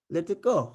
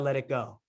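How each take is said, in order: First: It is said in a Cuban accent. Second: It is said in an American accent. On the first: The same advice sounds profound. "in a Cuban accent" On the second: The advice sounds generic and ordinary. "in an American accent"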